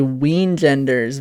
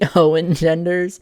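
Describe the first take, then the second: First: The word begins with a w sound. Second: The word begins with an oh sound.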